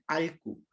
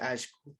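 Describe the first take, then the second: First: It is said with an l sound, southern style. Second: It is said with a sh sound, central style.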